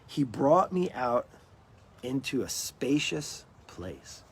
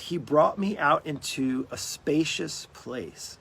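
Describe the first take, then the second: First: It is read at a slower, unhurried pace. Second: It is read at a normal, quicker pace.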